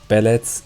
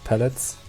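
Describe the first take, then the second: First: It is said with a Franconian B/P confusion. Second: It is said with a standard initial consonant. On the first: The speaker calls it wrong. "They say like pellets" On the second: The speaker calls it right. "instead of pellets"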